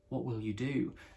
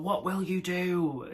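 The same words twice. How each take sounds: First: It is said in a calm, composed voice. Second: It is said in a hysterical, panicked voice. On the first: "she's delivering it like" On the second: "is how her voice sounds"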